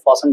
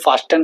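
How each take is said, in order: First: The t sound is left out. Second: The t sound is clearly pronounced. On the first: The speaker calls it right. "फासन बोलते हैं इसे" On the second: The speaker calls it wrong. "ऐसे नहीं बोलते"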